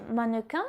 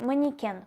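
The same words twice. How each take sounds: First: "mannequin" the French way, ending in a nasal in; French pronunciation. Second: "mannequin" Russian style, ma-ni-KEN with i and a clear final n; Russian pronunciation. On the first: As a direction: say "mannequin" as a French speaker would, no final n. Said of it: "dans le mot mannequin". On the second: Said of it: "en russe c'est mannequin". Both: Shown as a demonstration.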